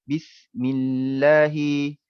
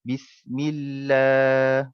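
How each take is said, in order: First: The la vowel is cut short. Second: The la vowel is held long. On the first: The speaker calls it wrong. "kita tak boleh baca pendek" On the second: The speaker calls it right. "Kita akan baca la tu panjang dua harakat"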